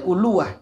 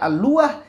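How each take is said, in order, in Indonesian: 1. Kata ini diawali dengan vokal 'u'. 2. Kata ini diawali dengan vokal 'a'. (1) "bisa mendomahkan hamzah" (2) "bisa dengan memfathahkan hamzah"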